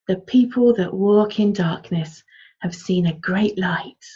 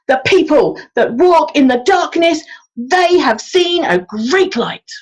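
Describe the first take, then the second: First: It is said in a warm, soothing storytelling tone. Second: It is said loudly, like a street-corner proclamation. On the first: It is a comforting children's story. "warm and fuzzy" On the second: It is an angry preacher's message. "like we were proclaiming it"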